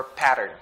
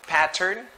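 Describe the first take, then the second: First: American flapped T in pattern; glided T. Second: Pattern with a clearly sounded T; crisp T. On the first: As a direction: say "pattern" as "padern". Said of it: "It's like there's D". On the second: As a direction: say "Pattern" as "pat-tern". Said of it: "They would glide the sound". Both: Shown as a demonstration.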